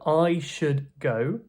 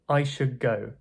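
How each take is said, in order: First: Should ends with a clear D sound. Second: The D in should becomes a G sound. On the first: "a D, when followed by a K or a G, this would become a G sound" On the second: "would turn into I should go"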